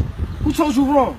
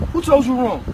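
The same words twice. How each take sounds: First: Drawn out, each word weighed; slow, deliberate question. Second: Said in the usual way. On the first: Real, not acted. To little bro, slowly pressing the question. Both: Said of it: "Who ill-advised you?".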